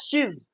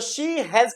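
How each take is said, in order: First: The two words merge into one short syllable. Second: The two words are said separately in full. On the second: "तो शी हैज का ये क्या गया"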